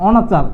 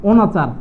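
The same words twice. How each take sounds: First: অনাচার begun with open "aw"; open অ vowel. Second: অনাচার begun with rounded "oh"; closed first vowel in অনাচার, "oh". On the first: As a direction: say অনাচার as "aw-na-char". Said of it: "অ দ্বারা যদি উচ্চারণ করি". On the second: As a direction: say অনাচার as "oh-na-char". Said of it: "ও দ্বারা উচ্চারণ করি". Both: Shown as a demonstration.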